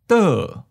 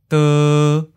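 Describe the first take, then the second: First: The syllable starts high and falls. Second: The syllable has a mid, flat pitch. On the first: "Second tone, high falling" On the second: "Seventh tone, mid flat"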